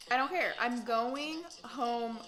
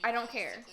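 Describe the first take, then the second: First: Emphatic. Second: Said in the usual way. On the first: Real, not acted. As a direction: punch it out as if you mean it. Repeated, louder and higher.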